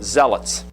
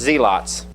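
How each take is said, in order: First: The word is said the usual modern way. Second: The word is said the older, original way. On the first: This is how people say it today. "what we would pronounce this word zealots" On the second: This is how it was said in its own time. "but it was pronounced zealots"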